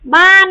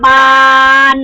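First: The word is said with a non-mid tone. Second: The word is said with a level mid tone.

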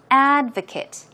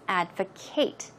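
First: The last syllable has a weak, short vowel like 'kit'. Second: The last syllable has a full vowel like 'Kate'. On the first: It is a noun: a person who supports something. "In the noun form, the stress goes on the first syllable" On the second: It is a verb: to support or recommend something. "as a verb, it's advocate. It's different"

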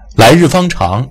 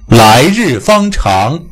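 First: The main vowels are short and not opened wide. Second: The main vowels are stretched and opened wide. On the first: The speaker calls it wrong. "它比来日方长要好听得多" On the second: The speaker calls it right. "你听"

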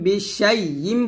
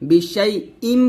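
First: The middle consonant is a y sound. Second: The middle consonant is a glottal stop. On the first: The speaker calls it wrong. "এই হামজাটা আমরা ইয়া উচ্চারণ করি" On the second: The speaker calls it right. "হামজা মিম জের ইম এরকম"

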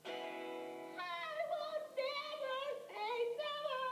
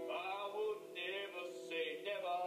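First: It is said in a higher, boyish voice. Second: It is said in a deep, sexy voice.

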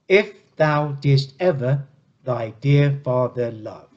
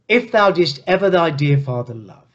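First: It is said slowly, beat by beat. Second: It is said at a normal pace.

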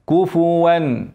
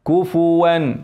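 No difference in how they are said.

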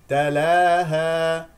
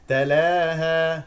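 First: The long vowel is a plain open 'a' sound. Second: The long vowel is tilted toward an 'e' sound. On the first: The speaker calls it right. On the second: The speaker calls it wrong.

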